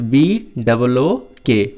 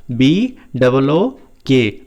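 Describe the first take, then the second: First: Said in the usual way. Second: Slow, letter by letter B double O के; slow spelling. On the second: Shown as a demonstration. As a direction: spell B double O के slowly for the class. (B double O के धीरे-धीरे) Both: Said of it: "यदि आपको ऐसे नहीं पढ़ना".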